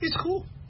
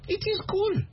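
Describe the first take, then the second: First: The words are joined into the short 'it's'. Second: Both words 'it is' are said in full. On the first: The speaker sounds like a native. The speaker calls it right. "Americans say, it's cool" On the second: The speaker sounds like a non-native. The speaker calls it wrong. "If you say, oh, it is cool, they know you're not American"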